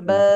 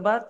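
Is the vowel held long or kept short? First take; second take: long; short. First: The vowel is drawn out and held longer. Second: The vowel is short and quick, not drawn out. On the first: "এখন আমরা টান দিয়ে পড়বো" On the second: "তাড়াতাড়ি পড়ে গেছিলাম বিনা টানে তাড়াতাড়ি"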